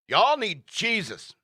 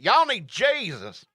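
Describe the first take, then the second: First: It is said in an ordinary, neutral accent. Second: It is said in a Southern American accent.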